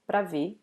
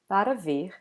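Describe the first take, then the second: First: The first vowel is dropped, leaving one syllable before ver. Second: Every syllable is pronounced in full. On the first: It is the usual everyday form. "people normally eat this first A, they say pra ver" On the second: It is the formal form. "formally it would be para ver"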